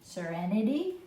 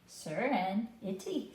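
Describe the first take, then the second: First: The word is said smoothly without a break. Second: The word is split with a pause between parts. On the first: "You can go straight through" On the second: "break it and read just a couple parts at a time"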